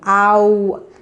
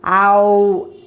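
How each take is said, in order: The two takes are said the same way.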